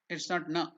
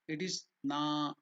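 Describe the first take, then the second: First: The vowel is short. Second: The vowel is long. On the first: The speaker calls it wrong. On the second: The speaker calls it right. "na is dirgha"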